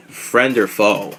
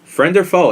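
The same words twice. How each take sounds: First: Slow, drawn-out trailer line; dramatic tagline. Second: Higher, punchier hype call; hyped tagline. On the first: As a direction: say it like a movie tagline. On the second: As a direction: shout it like an announcer. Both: Shown as a demonstration. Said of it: "this is the new tagline".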